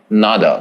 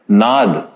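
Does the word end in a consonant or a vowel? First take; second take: vowel; consonant. First: The word ends with an added final a vowel. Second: The word ends on a consonant, no final vowel. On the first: This form is for easy universal pronunciation. The speaker calls it wrong. "and not nada" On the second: This is the traditional Sanskrit form. The speaker calls it right. "it should just be pronounced as nad"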